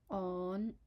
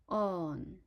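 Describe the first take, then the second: First: It is said in Cantonese tone five. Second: It is said in Cantonese tone four. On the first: "the fifth tone on" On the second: "fourth tone on"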